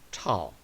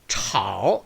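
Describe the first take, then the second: First: The tone stays low and weak. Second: The tone dips low and then rises. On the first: The speaker calls it right. "약하게 떨어진 느낌이죠" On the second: The speaker calls it wrong. "그래서 炒 이렇게 발음 안 되고요"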